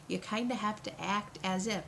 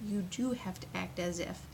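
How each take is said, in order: First: Said in the usual way. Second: "do" firmly emphasized as a correction; stress on DO. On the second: Shown as a demonstration. Coach correcting "kinda" to a firm rule, stressing "do". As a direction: lean on the word "do". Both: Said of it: "not kind of".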